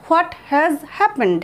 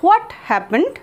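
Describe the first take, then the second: First: Stretched out word by word; slow it right down. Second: Said in the usual way. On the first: Shown as a demonstration. Teacher contrasting both forms, the second slowly. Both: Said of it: "দুটোই কিন্তু বলা যায়".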